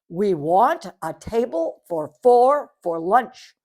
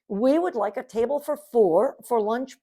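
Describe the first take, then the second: First: It is said loudly. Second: It is said at a normal volume.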